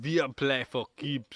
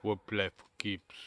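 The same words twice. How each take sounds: First: Slow, drawn-out German accent. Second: Half-hearted, softer German accent. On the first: Second try at the film German's line, stronger German accent. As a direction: lay on the German accent, word by word. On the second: Co-host asked for the film's German line, weak German accent. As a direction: try a slightly low, muted German accent. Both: Shown as a demonstration. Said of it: "do in your German accent".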